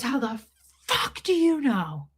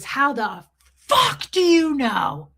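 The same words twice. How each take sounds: First: High-pitched mock scream at normal volume; held-back retold scream. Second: Higher, louder, drawn-out mock scream; retold scream. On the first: Repeating what the lady said, toned-down mock scream. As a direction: imitate her screaming without the full volume. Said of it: "I'm not gonna repeat it the way she did it". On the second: Lady berating a mother at a baby shower, imitated screaming. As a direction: imitate her outburst, stretching it out loud and high. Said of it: "Literally screams it".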